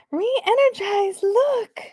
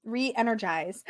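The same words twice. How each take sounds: First: High, drawn-out gasp of delight; delighted squeal. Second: Said in the usual way. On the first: Real, not acted. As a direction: squeal it high and slow, thrilled by the card. Gasps delightedly at the card.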